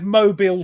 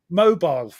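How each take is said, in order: First: It is said like the Alabama city name. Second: It is said the usual British way. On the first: This is not how the speaker's own country says it. "we don't have mobile phones" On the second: This is how the speaker's own country says it. "We have mobile"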